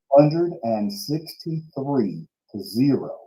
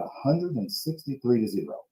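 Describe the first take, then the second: First: The phrase is said slowly and deliberately. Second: The phrase is said at a normal pace.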